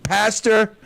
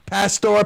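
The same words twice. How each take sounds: First: "Pastor" with a reduced -er ending, PASS-ter; "Pastor" with a quick, unrounded second syllable; Clemville accent. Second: "Pastor" with a full -or ending, PASS-tor; "Pastor" with a clear, rounded second syllable; careful spelled pronunciation. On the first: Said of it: "that's my Clemville accent". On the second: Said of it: "P A S T O R". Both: Shown as a demonstration.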